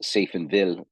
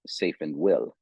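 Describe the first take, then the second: First: Safenville said with a v sound in -ville; pronounced with a V. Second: Safenwill said with an English w in -will; pronounced as spelt. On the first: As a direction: say Safenville as pronounced, ending in "vil". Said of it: "it's pronounced Safenville". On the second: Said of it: "spelt Safenwill". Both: Shown as a demonstration.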